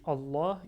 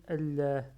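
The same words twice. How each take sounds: First: Allah with a full open a; teacher shows one way to say Allah to the class; first Allah variant. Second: Allah with a lighter a, as the other accepted way; teacher contrasts the second way of saying Allah; second Allah variant. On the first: En français : Allah, première prononciation. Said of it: "des fois on dit Allah". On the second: En français : Allah, seconde prononciation. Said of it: "et des fois on dit Allah". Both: Shown as a demonstration.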